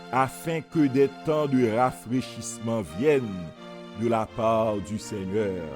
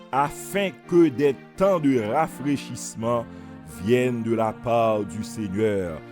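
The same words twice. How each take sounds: Both takes have the same delivery.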